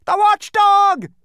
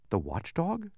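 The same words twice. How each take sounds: First: High, slow, drawn-out cry of terror; terrified shout. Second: Quizzical. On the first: Lethargerian shrieking warning about the watchdog, terrified. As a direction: scream the name in fright. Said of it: "shouted another". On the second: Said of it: "said Milo quizzically". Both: A narrator's reading.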